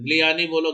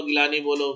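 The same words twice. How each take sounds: First: "गिलानी" said as GLI-YAA-nee; alternative pronunciation. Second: "गिलानी" said as gi-LAA-nee; short gi, then plain laa in "गिलानी", no y glide; common pronunciation. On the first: Teacher offering either name, "गिलानी" pronounced glee-YAA-nee. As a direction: run g into l, adding a y glide in "गिलानी". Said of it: "वैसे इसका pronunciation है". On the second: Teacher offering either name, "गिलानी" pronounced gi-LAA-nee. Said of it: "गिलानी बोलते हैं". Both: Shown as a demonstration.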